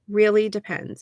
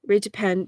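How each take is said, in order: First: Both words are said clearly and completely. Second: The words are rushed and squashed into one. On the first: The speaker calls it right. "And it was clear" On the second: The speaker calls it wrong. "trying to speak too fast"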